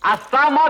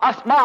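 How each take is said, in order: First: An extra vowel separates the s and m. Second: The s and m are joined directly together. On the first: The speaker calls it wrong. "కాదు" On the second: The speaker calls it right. "అస్మా అనాలి"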